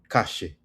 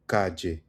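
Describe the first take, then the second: First: The ll is pronounced like an sh sound. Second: The ll is pronounced like a soft J sound. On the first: "in Argentine Spanish, it could sound sh" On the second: "in Colombian Spanish, it would be ja, the soft J"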